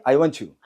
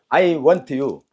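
First: "I want you" run together as "wanchu"; fast linked speech. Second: "I want you" word by word, T kept apart from "you"; slow separated words. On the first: Teacher tells students to go quicker, fast linked words. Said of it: "빨리". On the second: Teacher breaks it down for students, slow separated words. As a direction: spell out "I want you" slowly, unblended. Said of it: "빨리, I want you". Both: Shown as a demonstration.

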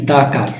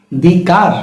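First: দা car with an open a in দা; right "the" before car. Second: দি car with a long ee in দি; wrong "the" before car. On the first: Teacher to Bengali viewers, giving the right take দা car. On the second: Teacher to Bengali viewers, giving the wrong take দি car. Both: Shown as a demonstration.

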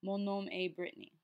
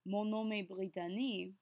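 First: Brittany in American English, "BRIT-nee", after the French; French phrase ending in a plainly American Brittany; Americanized name. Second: Brittany said the French way, "bree-tah-NEE"; smooth French-accented Brittany, flowing from Mon nom est. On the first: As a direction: switch to an American accent for Brittany. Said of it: "saying your name in the Americanized version". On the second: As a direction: give the name Brittany a French accent, all syllables sounded. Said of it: "say your name with a French accent". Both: Shown as a demonstration.

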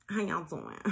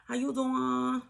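First: Said in the usual way. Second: High and slow, laughing through it; a giggly, higher sing-song greeting. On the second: Pretend. Spiritual advisor greeting her viewers, laughing and high.

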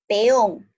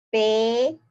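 First: Said in the usual way. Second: "Peón" as a drawn-out "pe", long pause, then "ón"; split into syllables. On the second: Shown as a demonstration. Teacher shows the class the hiatus kept apart, "Peón" split as pe... ón. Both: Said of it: "yo lo voy a mantener también separado".

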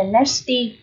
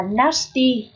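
First: NASTY with the "a" of "cat"; half-E half-A sound. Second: NASTY with a long open "ah"; long A sound. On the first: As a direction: say "nasty" as NASS-tee, vowel between E and A. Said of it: "hai là âm nửa E nửa A". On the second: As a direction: say "nasty" as NAH-stee. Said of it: "Một là âm A dài". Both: Shown as a demonstration.

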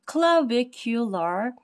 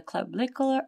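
First: "clavicular" drawn out slowly, syllable by syllable; slow, careful pronunciation. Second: Said in the usual way. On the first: Real, not acted. Teacher working through a hard anatomy term, "clavicular" said very slowly. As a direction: take your time sounding out "clavicular". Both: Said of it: "pronounce it very slow".

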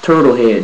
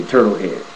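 First: Turtle head said loud with a falling tune; emphatic. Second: Said in the usual way. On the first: Shown as a demonstration. To viewers, naming his look, emphatic. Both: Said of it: "that's all I can say".

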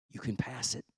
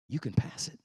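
First: Softer, lower reassurance; quiet encouragement to a struggling son. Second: Breathless whisper of encouragement; hushed whisper to a struggling son; whispered reassurance. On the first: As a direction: tell him gently he can pass it. God's gentle reassurance, said twice. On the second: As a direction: whisper it close, like a secret. Repeated as a whisper. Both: Retold or imitated.

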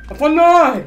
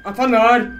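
First: Higher, louder repeat of the question; louder insistent. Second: Said in the usual way. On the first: Real, not acted. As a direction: demand it louder.

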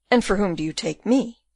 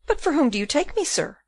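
First: Lightly voiced official turning the question back; burgomaster's counter-question. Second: Higher-pitched, lightly voiced puzzled question; puzzled Rosa. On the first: Burgomaster to Rosa, measured counter-question. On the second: Puzzled Rosa to the burgomaster, higher questioning voice. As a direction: ask it back in a lightly voiced higher register. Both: A narrator's reading.

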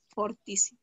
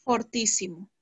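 First: "Fortísimo" again with o, a bit softer; soft confirming repeat of "Fortísimo"; repeating the correct form. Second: "Fortísimo" said with a plain o, not fuertísimo; correcting to fortísimo. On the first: Teacher repeats the corrected word for the class, soft and clear. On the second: Teacher corrects a pupil's superlative, calm clear pronunciation. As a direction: give the correct form "Fortísimo" calmly. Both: Shown as a demonstration. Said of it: "y Pedro está fuertísimo".

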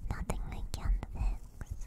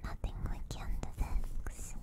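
No difference in how they are said.

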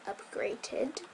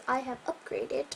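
First: Breathy whispered upgraded with a rising tune; sarcastic whispered aside; ironic air quotes. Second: Said in the usual way. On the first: Shown as a demonstration. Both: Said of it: "quote unquote".

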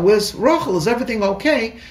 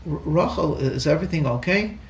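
First: A quick, raised, anxious call; bursting in to find her; urgent worry. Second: Tiptoeing in to a crying wife; gentle asking. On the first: Husband rushing in, worried. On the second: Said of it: "And I gently". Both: Retold or imitated.

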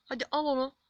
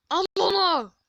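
First: Said in the usual way. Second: Loud, high yell at the players; urgent shout. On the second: Real, not acted. Gamer yelling at his players to take the ball, urgent shout. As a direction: bellow it like a frantic order.

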